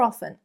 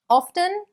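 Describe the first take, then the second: First: The t sound in the middle is silent. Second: The t sound in the middle is pronounced.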